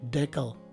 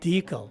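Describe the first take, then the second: First: The stress is on the second syllable. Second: The stress is on the first syllable. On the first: The speaker calls it wrong. "I myself sometimes make a mistake of pronouncing this as decal" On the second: The speaker calls it right. "the stress is right in the beginning of the word"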